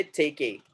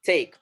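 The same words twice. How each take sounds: First: "take a" run together as "take-ay"; mispronounced "take a", ending in a clear "ay"; wrong final E. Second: Said in the usual way. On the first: Shown as a demonstration. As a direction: voice the silent E of take, "take a" as "tay-kay". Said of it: "We are not going to say". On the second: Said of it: "We are not going to say take a".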